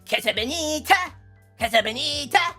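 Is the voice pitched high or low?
high. The voice is pitched up higher.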